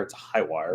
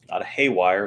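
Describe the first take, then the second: First: "high wire" with the vowel of "sky", set right. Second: "hay wire" with the vowel of "day", heard as the wrong name. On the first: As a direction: give "high" its full long I sound. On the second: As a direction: say "hay" like hay for horses, sharp and clear. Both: Shown as a demonstration.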